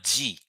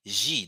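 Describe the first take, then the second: First: G said with a hard English "j" onset, as in "jeep"; wrong hard G. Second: G said as "zhee", with a soft "zh" onset; soft French-style G. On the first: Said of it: "No, not G". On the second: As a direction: soften G to the "zh" of "measure". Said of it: "the first one". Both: Shown as a demonstration.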